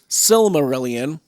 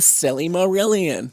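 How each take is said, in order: First: The name begins with a short 'sil' sound. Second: The name begins with an extra 'silly' sound. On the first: The speaker calls it right. "No, it's the Silmarillion" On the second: The speaker calls it wrong. "I even say it wrong sometimes"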